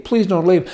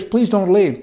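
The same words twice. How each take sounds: First: A touch of a desperate husband pleading; mock begging husband, repeated. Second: Lightly voiced pleading, a bit higher; a hint of a whiny husband begging his wife to stay; mock begging husband. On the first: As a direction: keep begging, lightly hammed. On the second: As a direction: beg like the clingy husband, half-hearted. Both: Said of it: "He will beg you to stay".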